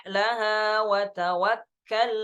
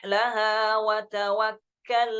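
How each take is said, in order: The two takes are said the same way.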